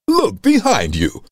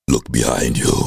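First: It sounds like a Pixar cartoon line. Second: It sounds like a horror film line.

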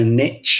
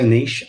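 First: It is said the American way, like nitch. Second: It is said the Australian way, rhyming with quiche.

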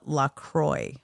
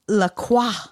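First: The name is said with an American pronunciation. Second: The name is said with a French pronunciation. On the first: "all over the country they call it" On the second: "is how you say it in French"

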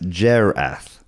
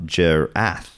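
First: The stress is on the first syllable. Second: The stress is on the second syllable. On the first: The speaker calls it right. "pronounced Gerath, with capitalized Jer" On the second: The speaker calls it wrong. "not Gerath"

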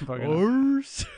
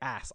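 First: The vowel is long, as in 'father'. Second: The vowel is short, as in 'cat'.

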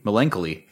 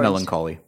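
First: The word is said to rhyme with Penelope. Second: The word is said with its standard pronunciation. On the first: "we can make it rhyme with Penelope" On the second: "How do you pronounce that word?"

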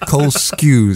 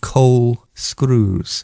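First: The surname has no r sound after the k. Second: The surname has an r sound after the k. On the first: The speaker calls it right. "Skews, Cole Skews. Sorry, I was giving you an extra R" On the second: The speaker calls it wrong. "I'm pronouncing it wrong. ... I was giving you an extra R"

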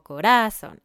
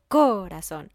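First: The stress is on the middle syllable. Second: The stress is on the first syllable. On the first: "o corazón" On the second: "No digo corazón"

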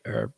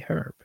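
First: The word starts with a silent h. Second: The word starts with a pronounced h. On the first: This is how others say the word. "They say herb" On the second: This is how the speaker's group says the word. "We say herb because it's a effing H"

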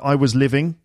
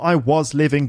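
First: The word was is weak and reduced. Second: The word was is said fully and stressed. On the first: The speaker calls it right. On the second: The speaker calls it wrong.

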